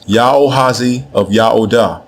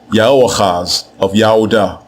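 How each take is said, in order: First: The first name ends with a final i sound. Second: The first name ends with a guttural chaz sound. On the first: This is how the ancient Akkadian text writes the name. "what we have in this text is the phrase" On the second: This is the name as it is said in Hebrew. "to say it correctly in Hebrew"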